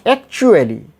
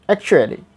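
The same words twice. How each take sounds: First: Actually with a full oo after the ch; actually said ak-CHOO-uh-lee; wrong strong oo. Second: Actually with a short, light u after the ch; correct weak vowel. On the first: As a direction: push out a clear oo in actually. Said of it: "So not actually". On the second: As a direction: keep the u in actually brief and relaxed. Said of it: "we will pronounce actually". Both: Shown as a demonstration.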